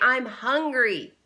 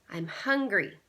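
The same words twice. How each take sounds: First: It is yelled loudly. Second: It is said at normal volume.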